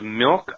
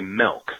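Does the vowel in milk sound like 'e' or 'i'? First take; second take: i; e. First: The vowel is a short 'i' sound. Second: The vowel is an 'e' sound, like melk. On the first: The speaker calls it right. "instead of milk" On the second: The speaker calls it wrong. "I say milk with an E, M-E-L-K"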